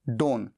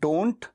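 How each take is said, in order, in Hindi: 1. अंतिम 't' ध्वनि छोड़ दी जाती है। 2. अंतिम 't' ध्वनि बोली जाती है। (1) "टी को साइलेंट करके केवल डोन" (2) "डू नॉट का कॉन्ट्रैक्शन डोंट"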